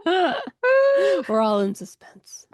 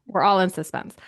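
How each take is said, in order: First: Hushed dramatic whisper. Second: Echoed spooky whisper. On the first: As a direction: breathe it like a secret. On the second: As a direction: whisper it back mysteriously. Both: Pretend.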